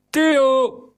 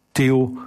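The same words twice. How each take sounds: First: Captain roaring for Theo. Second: Said in the usual way. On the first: A narrator's reading. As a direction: bellow for Theo across the deck. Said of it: "brulde de kapitein".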